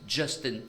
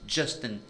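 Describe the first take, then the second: The two takes are said the same way.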